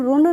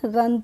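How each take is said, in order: First: The vowel sounds like 'oo' in 'book'. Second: The vowel sounds like 'uh' in 'cup'. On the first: The speaker calls it wrong. "इसको हम रुन नहीं पढ़ते हैं" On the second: The speaker calls it right. "रन पढ़ते हैं"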